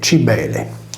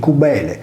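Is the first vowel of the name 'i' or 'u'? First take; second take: i; u. First: The first vowel is an 'i' sound. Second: The first vowel is an 'u' sound. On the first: The speaker calls it wrong. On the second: The speaker calls it right.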